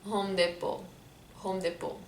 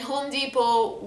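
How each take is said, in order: First: Home Depot with French "deh-po"; Lebanese French-English mix. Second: Home Depot the American way; slow American "dee-po" in Home Depot; American accent. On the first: Guessing the Lebanese version, French "deh-po" in Home Depot. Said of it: "I imagine we would say it". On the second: Introducing the brand to viewers, American accent. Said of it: "say it in an American accent". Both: Shown as a demonstration.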